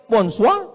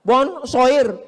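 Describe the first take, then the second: First: Bonsoir said French style, ending bon-swa. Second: Bonsoir read letter by letter, r sounded; bonsoir as spelt. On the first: Preacher showing the crowd the French bonsoir. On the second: Preacher contrasting French spelling, reading bonsoir as written. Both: Shown as a demonstration.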